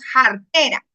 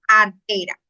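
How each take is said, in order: First: The word starts with a rough h sound. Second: The word starts directly with a vowel. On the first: This is the local popular way of saying it. "le colocamos la J" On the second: This is the standard form of the word. "la palabra en sí es artera"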